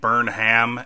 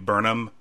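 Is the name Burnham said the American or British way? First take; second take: American; British. First: The name is said in an American way. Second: The name is said in a British way. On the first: The speaker calls it wrong. "Americanizing the name Burnham and saying Burnham" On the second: The speaker calls it right. "not Americanizing the name Burnham"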